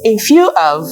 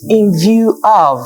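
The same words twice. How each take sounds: First: The middle word starts with an f sound. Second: The middle word starts with a v sound. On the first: It sounds like a different phrase. The speaker calls it wrong. "someone who has the F and V factor keeps saying" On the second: It is the intended phrase. The speaker calls it right. "the speaker meant in view of"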